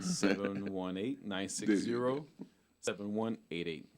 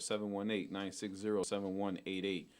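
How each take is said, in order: First: The number is said more slowly. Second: The number is said at normal speed.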